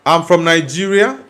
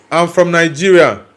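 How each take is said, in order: Both takes have the same delivery.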